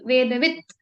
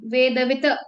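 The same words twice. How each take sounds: First: The word ends on a bare final consonant. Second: The word ends with an added final vowel. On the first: The speaker calls it right. "त है तो वेदवित ऐसा" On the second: The speaker calls it wrong. "ये अ नहीं बोलेंगे हम वेदवित ऐसा नहीं बोलेंगे"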